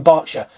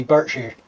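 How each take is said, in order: First: "Berkshire" said "Bark-sher"; speaker's own pronunciation. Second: "Berkshire" as "Burrk-shear" in a Berkshire accent; low, softer Berkshire-accent "Berkshire". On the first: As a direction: say "Berkshire" with "bark" and a reduced ending. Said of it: "But, you know, I say". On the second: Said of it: "if you spoke with a Berkshire accent". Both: Shown as a demonstration.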